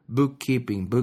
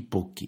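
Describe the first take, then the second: First: The word is said in full, all syllables. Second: The word is squeezed into two quick syllables.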